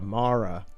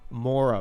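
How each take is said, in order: First: The vowel sounds like 'ah'. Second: The vowel sounds like 'oh'. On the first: The speaker calls it right. "That's how you pronounce it" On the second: The speaker calls it wrong. "Have I been saying Ekimoras wrong the whole time?"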